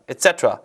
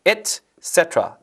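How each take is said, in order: First: "et cetera"를 붙여서 ce에 강세. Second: "Et"과 "cetera"를 천천히 끊어서; "Et / CEtera"로 또박또박, ce에 강세. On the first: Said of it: "이렇게 읽으시면 됩니다". ("et cetera"를 자연스럽게 이어 '세'만 강조) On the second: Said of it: "강세 여기 주시고요". ("cetera"의 '세'를 길고 분명하게) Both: Shown as a demonstration.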